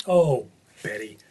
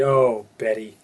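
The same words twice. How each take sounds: First: Put-on slow, drawn-out "Oh, Betty" like a fond old grandmother; grandmother's sigh. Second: Drawn-out "Oh, Betty" in a grandmother's voice; grandmother's sigh. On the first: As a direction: say "Oh, Betty" slowly, with a long sigh on "Oh". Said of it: "what my grandmother would always say". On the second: Retold or imitated. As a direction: lean on the "Oh", like a fond grandma calling. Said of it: "She'd call me and say".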